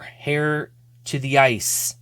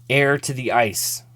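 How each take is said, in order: First: The first word begins with an h sound. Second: The first word begins without an h sound. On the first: The speaker calls it wrong. "I think I pronounced the H" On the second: The speaker calls it right. "I don't think you're supposed to"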